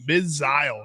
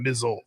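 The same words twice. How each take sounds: First: The word is said in a British accent. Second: The word is said in an American accent. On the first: The speaker calls it right. "the British pronunciation" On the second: The speaker calls it wrong. "not the American"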